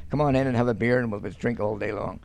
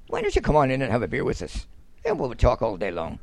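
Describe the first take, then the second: First: Said in the usual way. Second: Lightly imitated Southern Irish lilt; Southern Irish accent. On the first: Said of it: "We just say". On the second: Shown as a demonstration. Northerner showing how Southerners invite you for a beer, in a light Southern Irish accent. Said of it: "they turn around and they talk with a, a wee accent".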